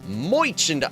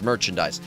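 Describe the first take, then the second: First: It is said in a comic put-on accent. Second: It is said in an ordinary plain accent.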